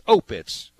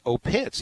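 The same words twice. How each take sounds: First: The stress is on the first syllable. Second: The stress is on the second syllable. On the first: The speaker calls it right. "the emphasis on the O" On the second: The speaker calls it wrong. "put the emphasis on the incorrect syllable"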